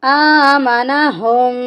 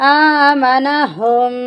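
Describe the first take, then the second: The two takes are said the same way.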